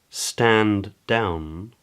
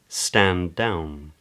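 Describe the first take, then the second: First: Both D sounds are said separately. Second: A single D is held briefly.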